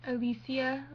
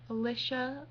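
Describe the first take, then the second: First: Alicia said as a-LEE-see-a, with an s; wrong way to say Alicia. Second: Alicia said a-LISH-a with a short i; another wrong Alicia. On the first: Correcting viewers, mocking how they mispronounce her name as a-lee-see-a. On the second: Listing a second botched way viewers say Alicia, a-lish-a. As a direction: Alicia as a-lish-a, rising at the end. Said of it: "or Al". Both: Shown as a demonstration.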